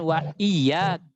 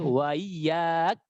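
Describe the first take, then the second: First: The hamza is pronounced fully and clearly. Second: The hamza is softened and eased. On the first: The speaker calls it wrong. "bukan wa iyak" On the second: The speaker calls it right. "ditashilkan hamzanya, ... tapi wa iyak"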